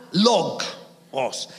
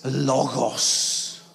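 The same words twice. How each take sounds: First: "logos" split as LOG, then os; "logos" broken in two like a wooden log; mispronounced logos. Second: "logos" said smoothly as LO-ghos, slow and low; slow, softer "logos" with a Greek g. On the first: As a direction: say "logos" as English "log" plus a separate "os". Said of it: "It's logos". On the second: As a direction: say "logos" as one drawn-out Greek word. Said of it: "It's not". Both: Shown as a demonstration.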